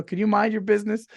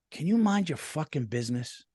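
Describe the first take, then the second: First: "Can you mind your business?" said politely, pitched higher and lighter. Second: "Can you mind your fucking business?" snapped rudely with the curse; cursing rudely. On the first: Replaying the fight with his wife, polite higher-pitched redo. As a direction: sweeten the request, no edge. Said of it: "I should have politely said". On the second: Retelling what he told his wife, mock rude retort. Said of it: "I knew I shouldn't have cursed". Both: Retold or imitated.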